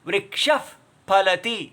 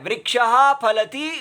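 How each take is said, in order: First: A lip friction f-like sound follows vriksha. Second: A plain breathy h sound follows vriksha. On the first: "होठों को जोड़ के आवाज आती है, ये फ की आवाज आएगी" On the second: "एक तो वही रहता है"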